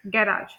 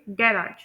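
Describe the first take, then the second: First: गैराज the British way, stressed on the first syllable; British-style GA-rage for गैराज; British pronunciation. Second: गैराज the American way, stressed on the second syllable; American-style ga-RAGE for गैराज; American pronunciation. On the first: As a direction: lean on the front of गैराज, as in British English. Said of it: "British English में हम इसे". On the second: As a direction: lean on the end of गैराज, as in American English. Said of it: "American English में हम लोग इसे". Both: Shown as a demonstration.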